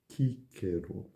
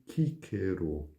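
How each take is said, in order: First: The name is said in restored Latin style. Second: The same.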